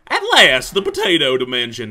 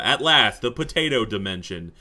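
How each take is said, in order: First: Grand announcement. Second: Said in the usual way. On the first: Shown as a demonstration. Player arriving in Potato Land, proclaiming grandly.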